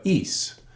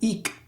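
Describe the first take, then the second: First: The stem ends with an S sound. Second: The stem ends with a hard K sound. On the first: The speaker calls it right. "but is" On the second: The speaker calls it wrong. "the stem isn't ik"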